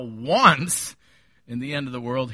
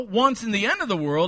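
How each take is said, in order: First: The word once is strongly stressed. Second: The word once is not specially stressed.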